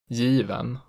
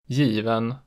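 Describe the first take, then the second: First: The pitch rises into a later peak. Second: The pitch peaks immediately at the start. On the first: "in accent 2, the pitch rises into a peak on the stressed vowel" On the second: "The peak in accent 1 is immediate"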